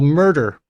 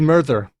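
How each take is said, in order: First: The middle consonant is a d sound. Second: The middle consonant is a th sound. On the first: "converted some T H words into a D" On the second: "used to be"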